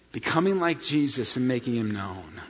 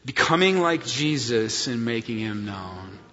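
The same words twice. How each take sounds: First: Said in the usual way. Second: Congregational recitation. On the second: Shown as a demonstration. Pastor leading congregation in mission statement, recited. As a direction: lead the church in the mission line. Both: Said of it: "Say it with me".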